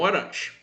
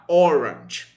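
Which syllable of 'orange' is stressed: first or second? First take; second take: second; first. First: The stress is on the second syllable. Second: The stress is on the first syllable. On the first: The speaker calls it wrong. "não orange" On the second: The speaker calls it right. "a sílaba tônica é o primeiro O"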